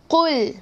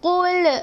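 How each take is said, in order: First: The word ends cleanly on the l sound. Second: The word ends with an extra trailing vowel sound. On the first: The speaker calls it right. "Cuma baca qul" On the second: The speaker calls it wrong. "Jangan baca qul, qul. Salah. Tak nak ada ekor-ekor kat belakang"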